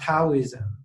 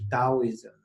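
First: The word begins with a T sound. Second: The word begins with a D sound. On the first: This is the form used in this country. "it become Taoism, become T" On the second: This is the original Mandarin pronunciation. "the traditional Chinese Mandarin pronunciation as a D"

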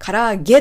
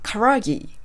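First: It ends with the Japanese 'e' vowel. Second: It ends with an English-style 'i' vowel.

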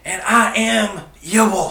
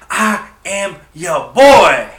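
First: It is said at normal loudness. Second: It is said much louder.

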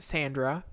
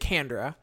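First: The name begins with an S sound. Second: The name begins with a K sound. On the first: The speaker calls it wrong. "which I would have pronounced Sandra" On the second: The speaker calls it right. "it's 100% Candra"

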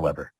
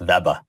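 First: The name begins with a W sound. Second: The name begins with a V sound. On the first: The speaker calls it wrong. "It's not Weber" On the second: The speaker calls it right. "kept the continental V. It's Weber"

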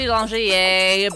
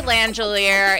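First: The name is said in a French way. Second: The name is said in an anglicized way. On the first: This is how the name is meant to be said. The speaker calls it right. "It's supposed to be Langelier" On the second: This is how the family says it now. The speaker calls it wrong. "We say Langelier"

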